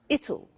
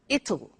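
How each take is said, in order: First: It is said as one contracted word. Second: It is said as one contracted word.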